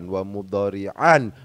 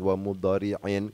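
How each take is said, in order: First: The word ends with the sound -an. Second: The word ends with the sound -in. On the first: The word is in the accusative case. "bukan wa mudhari'an" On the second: The word is in the genitive case. "bukan wa mudhari'in"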